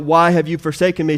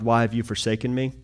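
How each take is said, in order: First: Quoted louder and faster, a touch of crying out; mild mock cry. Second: Said in the usual way. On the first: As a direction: lift the quote into a half cry. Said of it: "He cries out". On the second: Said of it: "He cries out to God".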